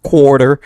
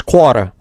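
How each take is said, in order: First: Said in the usual way. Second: "quarter" without its Rs, "kwah-tuh"; Louisiana "quarter". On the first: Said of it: "is not quarter". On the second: Shown as a demonstration. Insisting on the home-state way, "quarter" as "kwah-tuh". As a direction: drop both Rs in "quarter". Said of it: "It is quarter".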